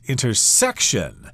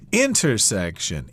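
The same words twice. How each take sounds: First: The stress is on the third syllable. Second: The stress is on the first syllable. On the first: "with the accent there on the third syllable" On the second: "I usually put it on the first syllable"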